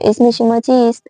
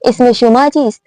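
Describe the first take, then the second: First: The word shoma gets no extra emphasis. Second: The word shoma is raised and emphasized. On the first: It simply asks for the other person's name. "Normal अंदाज से पूछ ले" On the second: I gave my name, now what is yours. "शुमा को आप लोग थोड़ा ऊपर लेके जाएंगे"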